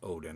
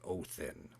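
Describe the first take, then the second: First: The middle consonant is a d sound. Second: The middle consonant is a th sound. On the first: This is the present-day form of the name. "the modern pronunciation" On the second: This is the original form of the name. "the real pronunciation"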